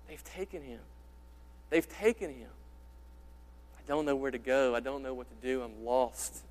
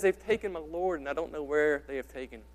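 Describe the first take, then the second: First: Quiet, broken voice of grief, a hint of sobbing; grief-stricken. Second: Said in the usual way. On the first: Mary at the empty tomb, softly breaking in grief. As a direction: let the words nearly crack with despair. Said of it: "her voice just cracking, sobbing". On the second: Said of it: "Can you hear the grief and despair in her voice?".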